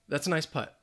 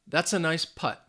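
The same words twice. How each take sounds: First: The sentence is said at normal speed. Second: The sentence is said slowly.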